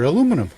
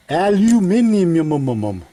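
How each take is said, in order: First: Said in the usual way. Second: Aluminium drawn out as al-you-MIN-ee-um, trailing into mum-mum-mum; over-enunciate "Aluminium" with a babbled tail; exaggerated foreign pronunciation. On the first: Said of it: "I say aluminum". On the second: Shown as a demonstration. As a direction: stumble mockingly through "Aluminium", louder and higher, slow. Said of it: "that's how the way they say it".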